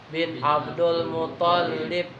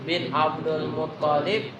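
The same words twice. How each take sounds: No difference in how they are said.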